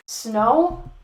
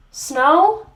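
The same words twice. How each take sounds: First: Mildly disbelieving, rising question; incredulous question. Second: Louder, higher incredulous question; escalated disbelief. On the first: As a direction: query it in disbelief. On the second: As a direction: repeat it, utterly appalled and rising. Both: Acted. Incredulous reaction, repeated and escalating.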